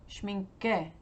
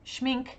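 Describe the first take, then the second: First: The word ends with a vowel after k. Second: The word ends on a k sound. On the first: "you pronounce the E" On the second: "Renata says no E at the end"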